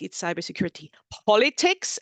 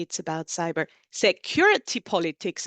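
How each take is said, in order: First: "politics" hit harder, rising at the end; "cybersecurity politics" with the weight on "politics"; stress on politics. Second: "security" stressed, "politics" falls back; "cyber security politics" with the weight moved to "security". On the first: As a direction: lean on "politics", the last word. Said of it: "emphasis on the last word". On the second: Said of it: "shift the emphasis". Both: Shown as a demonstration.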